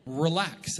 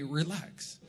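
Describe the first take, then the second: First: Said in the usual way. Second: Dad's relax. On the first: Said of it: "I said the words that my dad used to say". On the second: Retold or imitated. Quoting his dad to Pastor Erin, softer lightly voiced dad. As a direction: hand down dad's calm brush-off. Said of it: "the words that my dad used to say to me".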